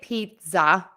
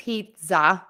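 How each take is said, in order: First: The middle consonant sounds like a Z. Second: The same.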